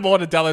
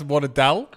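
First: The word ends with its full final syllable. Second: The word is cut off before its final syllable. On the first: "Instead of mortadella" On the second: "you just take off the last syllable"

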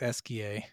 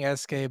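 First: The name ends with an 'ee-ah' sound. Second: The name ends with an 'ay' sound. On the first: The speaker calls it right. "but it's Eskia" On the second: The speaker calls it wrong. "I'm saying Eskay"

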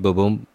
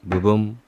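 No difference in how they are said.

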